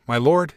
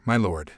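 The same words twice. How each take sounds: First: "lord" leaned on, lifting at the end; emphasis on "lord". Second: Low, softly falling "my lord"; kindly address. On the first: Queen pressing her visitor to submit, leaning on "lord". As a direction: lean pointedly on "lord" in "my lord". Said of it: "she leaned on the word, putting emphasis on it". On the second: Queen greeting the northern visitor, kindly. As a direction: let "my lord" drop gently and low. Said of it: "She addressed him kindly". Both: A narrator's reading.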